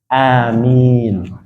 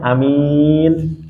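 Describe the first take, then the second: First: Both the first and second vowels are long. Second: The first vowel is short, the second long. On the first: Lord, accept our prayer. The speaker calls it right. "a-nya dipanjangkan, mi-nya juga dipanjangkan" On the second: A trustworthy person. The speaker calls it wrong. "a-nya pendek, mi-nya yang panjang"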